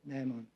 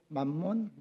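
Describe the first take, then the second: First: The first syllable is said as 'mae'. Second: The first syllable is said as 'man'. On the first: The speaker calls it right. "정확한 발음은 매몬이죠" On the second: The speaker calls it wrong. "그때는 하나님과 만몬을 겸하여 섬기지 못하느니라 그렇게 나왔어요"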